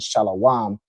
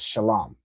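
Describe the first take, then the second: First: The word is said with an added vowel. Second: The word is said without an added vowel. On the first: The speaker calls it wrong. "which confuses every fake Israelite" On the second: The speaker calls it right. "the original word, without any vowel added"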